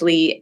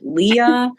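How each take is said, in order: First: It is said as one syllable, lee. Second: It is said as two syllables, lee-uh. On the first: The speaker calls it right. "it's Lee" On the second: The speaker calls it wrong. "Is it Leah?"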